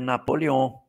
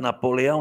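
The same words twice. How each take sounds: First: The name is said in its French form. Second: The name is said in its Portuguese form. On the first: This is the person's original name. The speaker calls it right. "o nome dele era Napoleão" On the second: This is the local adapted form of the name. The speaker calls it wrong. "O nome dele não era Napoleão"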